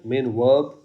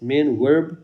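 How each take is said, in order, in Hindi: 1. यह ब्रिटिश लहजे में बोला गया है। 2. यह अमेरिकन लहजे में बोला गया है। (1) "ब्रिटिश इंग्लिश" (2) "अमेरिकन"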